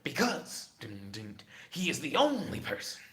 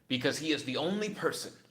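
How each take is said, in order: First: It is said in a put-on character voice. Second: It is said in the speaker's ordinary voice.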